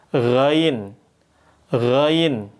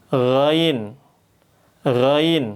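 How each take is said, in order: The two takes are said the same way.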